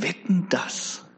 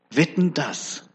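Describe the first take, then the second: First: Slow, whispered wager; sly whispered challenge from the devil; daring whisper. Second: Said in the usual way. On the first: Acted. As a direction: breathe the bet like a sly dare. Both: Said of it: "ganz verwegen und sagt".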